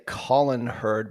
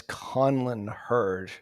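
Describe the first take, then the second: First: "Colin" said with no n before the l; "Colin Hurd" with a simple COL-in; mistaken pronunciation. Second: "Conlon" said slowly, with an n before the l; slow, deliberate "Conlon Hurd", CON-lon; corrected pronunciation. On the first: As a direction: say "Colin" as the common first name, COL-in. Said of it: "I wanna say Colin Hurd". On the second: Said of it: "but it's Conlon Hurd". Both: Shown as a demonstration.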